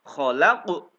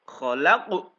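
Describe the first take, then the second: Both takes have the same delivery.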